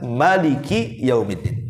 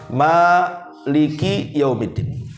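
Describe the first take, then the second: First: The first vowel after m is kept short. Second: The first vowel after m is drawn out long. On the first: "Bisa dibaca" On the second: "Bisa dibaca mimnya panjang"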